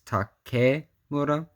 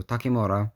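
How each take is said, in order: First: "Takemura" in parts, tah-KEH, moo-rah; "Takemura" with KE as "keh", stressed; careful pronunciation. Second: "Takemura" blended as tah-kee-moo-rah; "Takemura" run together, KE as "kee"; quick pronunciation. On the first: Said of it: "I think it's K". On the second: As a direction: say "Takemura" in one go with kee in the middle. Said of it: "when you say it fast". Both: Shown as a demonstration.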